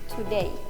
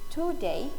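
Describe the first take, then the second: First: The stress falls on the second syllable. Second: The stress falls on the elongated first syllable. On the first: "mainstream American English" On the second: "stress is often placed on one syllable prefix"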